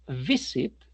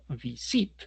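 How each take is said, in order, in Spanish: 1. El acento está en la primera sílaba. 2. El acento está en la segunda sílaba. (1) "que es así la pronunciación" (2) "y no visit"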